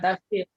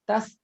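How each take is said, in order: First: It is said with a 'sh' sound in the middle. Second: It is said with an 's' sound in the middle. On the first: The speaker calls it wrong. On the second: The speaker calls it right.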